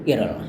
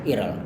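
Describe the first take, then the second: No difference in how they are said.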